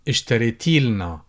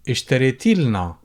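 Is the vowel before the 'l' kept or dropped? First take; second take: dropped; dropped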